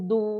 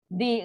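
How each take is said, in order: First: The consonant is followed by a u vowel. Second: The consonant is followed by an i vowel. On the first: "dia boleh baca du, du, du pun boleh" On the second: "baris bawah tak boleh lah"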